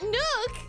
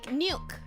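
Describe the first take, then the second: First: No 'y' glide comes before the vowel. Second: A 'y' glide comes before the vowel. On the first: "But nuke, I don't" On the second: "I add an I in the middle, like nuke"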